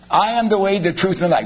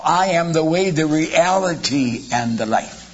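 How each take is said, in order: First: Said in the usual way. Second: Slow and lean on "reality"; corrected verse with "reality" slowed and weighted; stress on reality. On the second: Shown as a demonstration. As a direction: draw out "reality" as the corrected word. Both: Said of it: "And it's not that at all".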